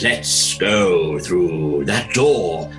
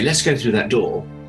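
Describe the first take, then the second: First: It is said slowly, in a ponderous Shakespearean way. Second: It is said briskly, like a normal actor.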